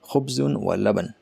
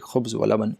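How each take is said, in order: First: The first word keeps its full ending. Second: The first word stops on its final consonant. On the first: The speaker calls it right. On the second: The speaker calls it wrong.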